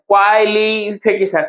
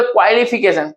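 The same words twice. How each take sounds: First: क्वालिफिकेशन slowly, opening syllables drawn out; क्वालिफिकेशन slowed for counting syllables. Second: Said in the usual way. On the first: Shown as a demonstration. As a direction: break up क्वालिफिकेशन as kwai, li, fi, ke, shan. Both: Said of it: "यानी कि एक".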